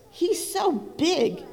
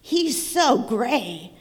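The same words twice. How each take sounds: First: Higher, slow squawking hen. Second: Slow, drawn-out horse voice. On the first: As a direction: pitch it up like a fussy hen. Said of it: "squawked the hen". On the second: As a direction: stretch it out like a sleepy horse. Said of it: "neighed a horse". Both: Acted.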